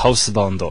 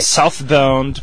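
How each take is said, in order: First: It is said with a Japanese pronunciation. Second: It is said with an English pronunciation.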